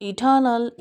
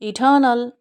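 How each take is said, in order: No difference in how they are said.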